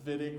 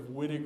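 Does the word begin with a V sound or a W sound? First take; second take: V sound; W sound. First: The word begins with a V sound. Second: The word begins with a W sound. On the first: The speaker calls it right. "with a V sound instead of W" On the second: The speaker calls it wrong. "organic chemists are going to twitch a little bit"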